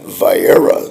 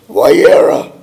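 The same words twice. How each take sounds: First: The word begins with a V sound. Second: The word begins with a W sound. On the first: "when I read Vayera" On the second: "pronouncing W's as though they were V's"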